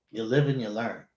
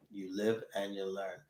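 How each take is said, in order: First: Said in the usual way. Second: Softer repeat to himself; soft echo. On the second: Real, not acted. Host echoing his lesson to himself, a softer resigned repeat. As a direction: mutter it back as a resigned afterthought.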